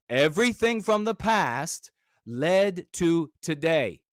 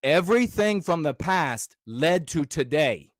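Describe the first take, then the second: First: Slower and weightier, each word given room; slow emphatic repeat. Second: Said in the usual way. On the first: Real, not acted. Repeating his wisdom to viewers, slow and deliberate. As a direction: drive the point home slowly. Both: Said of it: "Hear this piece of wisdom".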